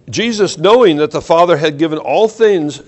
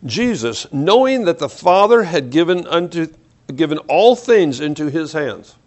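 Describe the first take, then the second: First: Said in the usual way. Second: Slow reading. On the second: Shown as a demonstration. Preacher rereads the verse to his congregation, slowly and deliberately. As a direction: read slowly and deliberately, phrase by phrase. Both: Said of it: "let's read this slowly".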